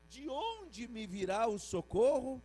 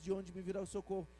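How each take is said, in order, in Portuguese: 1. É lida com entonação de pergunta. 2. É lida de forma neutra, como afirmação. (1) "Ponto de interrogação" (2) "se eu não botar a pontuação"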